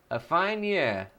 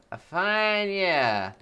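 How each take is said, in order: First: Said in the usual way. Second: Slow, lordly drawn-out voice; posh slow drawl. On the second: Acted. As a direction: savour each word like an old aristocrat. Streamer reacts to cheer total.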